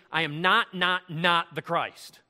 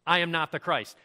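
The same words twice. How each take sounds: First: Slow, punched "not, not, not"; hammered emphasis on "not". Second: Firm stress on "not" in one run; emphatic denial. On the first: Shown as a demonstration. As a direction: hammer each "not" separately, like bold underlining. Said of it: "bold, underline, italicize". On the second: Retold or imitated. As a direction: say "not" firmly, without repeating it. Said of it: "he's being emphatic here".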